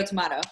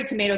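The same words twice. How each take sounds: First: "tomato" with a broad ah in the middle; "tomato" with middle syllable like "ma"; tomato as "to-mah-to". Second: "tomato" with an ay in the middle; "tomato" with middle syllable like "may". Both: Shown as a demonstration. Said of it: "it's very tomato, tomato".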